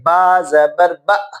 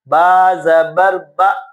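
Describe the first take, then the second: First: The final vowel is cut off with a jerk. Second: The final vowel is smooth, neither jerked nor stretched. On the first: The speaker calls it wrong. "आप झटका देते हैं, ... ये भी गलत है" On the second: The speaker calls it right. "खींचना भी नहीं है और इसको झटका भी नहीं देना"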